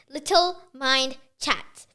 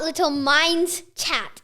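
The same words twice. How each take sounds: First: "Mind" slow, with no final s; singular Mind. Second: "Minds" slow, with a final s; wrong plural Minds. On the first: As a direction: say "Mind" slowly, ending on d. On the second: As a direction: stretch out "Minds", sounding the plural s. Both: Shown as a demonstration. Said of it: "People get confused, so don't".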